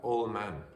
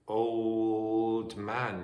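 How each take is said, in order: First: The final consonant of old is dropped. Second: The final consonant of old is pronounced. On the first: "you might have old man" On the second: "Instead of old man"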